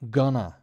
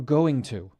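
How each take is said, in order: First: The words run together into one short word. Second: Both words are said fully and separately.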